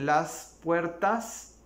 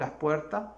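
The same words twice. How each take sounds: First: The final s sounds are clearly pronounced. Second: The final s sounds are dropped. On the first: "En vez de decir" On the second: "no pronunciamos las S al final de la palabra"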